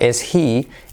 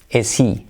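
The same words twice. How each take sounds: First: The two words are said apart. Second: The two words run together as one. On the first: "Instead of" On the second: "we link the words together"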